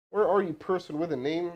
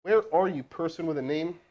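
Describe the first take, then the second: No difference in how they are said.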